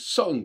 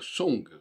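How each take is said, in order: First: The vowel is not the French 'on' sound. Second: The vowel sounds like the French 'on' sound. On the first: This is how English speakers ought to say it. The speaker calls it right. "ils devraient dire song" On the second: This is a reading borrowed from French. The speaker calls it wrong. "ils ne devraient pas dire song"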